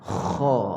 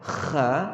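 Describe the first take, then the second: First: The sound is heavy, raised toward the palate. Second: The sound is light, not raised toward the palate. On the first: The speaker calls it right. "suara kita akan menuju ke kawasan lelangit dulu" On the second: The speaker calls it wrong. "tak betul. Kha dia tak naik ke langit"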